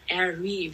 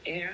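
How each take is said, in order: First: The name is said as two syllables ending in ee. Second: The name is said as one syllable. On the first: "oder Airy, wie Stormy" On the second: "also Er einfach"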